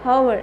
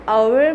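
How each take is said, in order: First: The word begins with an h sound. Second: The word begins with a vowel sound. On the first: The speaker calls it wrong. "ऐसा नहीं बोलते" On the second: The speaker calls it right. "एच से pronunciation नहीं होता"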